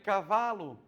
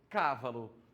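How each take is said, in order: First: The stress is on the second syllable. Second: The stress is on the first syllable. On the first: The speaker calls it right. "Aqui na número dois tem cavalo" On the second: The speaker calls it wrong. "a número um aqui tem cávalo"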